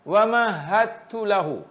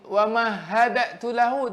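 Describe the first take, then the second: First: The d is fully merged into the t. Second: The d is released with a bounce before t. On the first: The speaker calls it right. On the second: The speaker calls it wrong.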